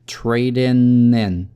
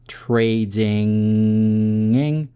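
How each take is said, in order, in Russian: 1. Конечный н образуется за передними зубами. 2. Конечный н образуется в задней части рта, он носовой. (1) "произносить обычный н, который на альвеолах" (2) "Вилярный звук н, то есть получается вы в горле зажимаете н"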